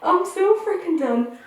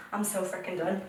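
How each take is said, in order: First: Higher pitched fed-up cry; exasperated and pitched up; exasperated outburst. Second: Much softer, lower, under the breath; quiet defeated mumble; deflated mutter. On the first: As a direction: throw up your hands, voice up high. Repeats line, first high. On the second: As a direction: let it drop away, muttered to yourself. Repeats line, then sinks low. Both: Real, not acted.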